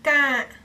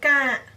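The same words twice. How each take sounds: The two takes are said the same way.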